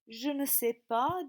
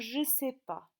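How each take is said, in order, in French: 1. Le son du 'ne' de la négation est prononcé. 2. Le son du 'ne' de la négation est omis.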